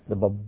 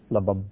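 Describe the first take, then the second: First: The word is said with a B sound. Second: The same.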